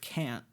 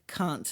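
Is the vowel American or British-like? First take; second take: American; British-like. First: It has an American vowel. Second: It has a British-like vowel.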